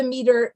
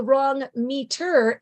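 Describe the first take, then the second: First: Said in the usual way. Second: "meter" stressed on its second syllable, me-TER; wrong stress. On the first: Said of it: "if I were not using the". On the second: Shown as a demonstration. Teacher showing listeners a misplaced beat, "meter" as me-TER. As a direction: put the beat on the end of "meter". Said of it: "if I were to use the wrong meter".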